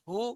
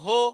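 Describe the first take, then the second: First: The vowel after 'h' is 'u'. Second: The vowel after 'h' is 'o'. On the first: The speaker calls it right. "পেশের উচ্চারণ রসউকার হবে।" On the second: The speaker calls it wrong. "অনেকে ওকার উচ্চারণ করে, বলে হো। এটা ভুল।"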